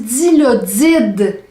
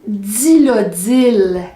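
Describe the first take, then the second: First: The word ends with a D sound. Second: The word ends with an L sound. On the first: The speaker calls it right. "on dit dilodide avec un D en finale" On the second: The speaker calls it wrong. "On ne dit pas non plus dilodil"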